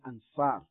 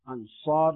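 First: The s is a light, plain sound. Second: The s is a heavy, emphatic sound. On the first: The speaker calls it wrong. "not ansar" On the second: The speaker calls it right. "Ansar with a sad as well"

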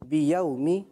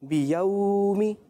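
First: The middle vowel sound is kept short. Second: The middle vowel sound is stretched long. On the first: The speaker calls it right. "صحیح پڑھا, کھینچنا نہیں ہے" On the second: The speaker calls it wrong. "غلط پڑھا ہے"

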